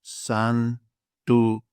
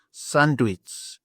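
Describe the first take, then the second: First: "Sanduits" split into san, du, its; teacher slowly sounding out "Sanduits", pauses between parts; syllable by syllable. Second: "Sandwich" as one word, san-du-its, ending in ts; Greek pronunciation. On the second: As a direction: blend it into Greek "sanduits", higher than usual. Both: Shown as a demonstration. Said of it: "I will say it for you now".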